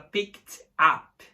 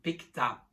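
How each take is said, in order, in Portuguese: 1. As duas palavras são ditas separadamente, com uma pausa. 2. As duas palavras são ditas juntas, sem pausa. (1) "a gente não fala picked up" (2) "Não separa, é tudo junto"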